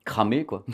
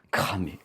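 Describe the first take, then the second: First: Said in the usual way. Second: Laughing it out, lower and softer. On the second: Real, not acted. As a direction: chuckle through the word Cramé. Repeats laughing. (en riant doucement)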